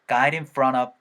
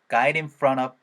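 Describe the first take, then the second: The two takes are said the same way.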